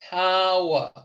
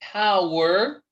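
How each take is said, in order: First: The word ends in an 'a' vowel, no R. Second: The word ends with a sounded R. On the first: "la E R como una A" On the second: "er, er, la R"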